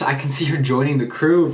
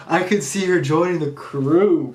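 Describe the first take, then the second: First: Said in the usual way. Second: Higher, slower, savoring each word; dreamy delight at the idea; gushing fan excitement, higher; excited hope. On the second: Real, not acted.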